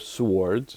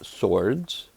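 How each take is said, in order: First: The W sound is pronounced. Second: The W sound is silent.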